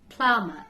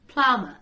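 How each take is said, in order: Both takes have the same delivery.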